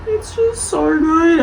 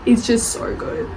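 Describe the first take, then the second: First: Higher, slower, voice welling up; emotional, near tears. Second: Said in the usual way. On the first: Real, not acted. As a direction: let it get to you, almost crying. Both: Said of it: "I'm gonna cry about it now".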